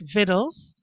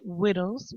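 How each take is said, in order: First: The word begins with a clear V sound. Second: The word begins with a W sound.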